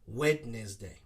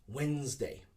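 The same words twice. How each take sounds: First: Every syllable is pronounced, giving three syllables. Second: It is shortened to two syllables with a z sound. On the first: The speaker calls it wrong. "trying to pronounce every syllable" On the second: The speaker calls it right. "we make it shorter by saying Wednesday. Two syllables"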